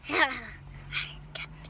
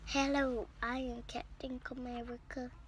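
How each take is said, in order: First: It is whispered. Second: It is said in a normal voice.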